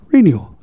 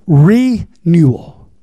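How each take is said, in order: First: Said in the usual way. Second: "Renewal" very slow, split as "Re... newal"; broken-down word. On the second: Shown as a demonstration. Preacher breaking a word down for congregation, "Renewal" in slow parts. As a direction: stretch the "Re" of "Renewal", then a gap before "newal". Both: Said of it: "let me break it on down".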